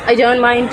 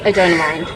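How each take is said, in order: First: Said in the usual way. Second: Low, mock-dramatic deep voice; deep put-on voice. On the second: Repeats the line in another voice.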